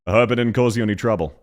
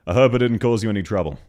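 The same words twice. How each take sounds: First: Fast, broad Australian with swallowed vowels; Australian accent. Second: Fast, broad Australian read with "hope" as "hə˞p"; Australian accent. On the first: Streamer answering the game clip with a proper Australian accent. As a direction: rattle it off like a real Aussie. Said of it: "more Aussie than whatever the fuck this is". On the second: Streamer showing how an Australian would really say the line, broad Australian. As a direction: say it the way a real Aussie would. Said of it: "The way an Aussie would pronounce it". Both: Shown as a demonstration.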